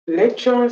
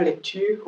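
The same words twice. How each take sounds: First: English "Lecture", LEK-cher; English pronunciation. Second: French "lecture", lek-TÜR; French pronunciation. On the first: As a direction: say "Lecture" higher, stressed first, with a ch sound. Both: Shown as a demonstration. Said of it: "c'est pas lecture en français".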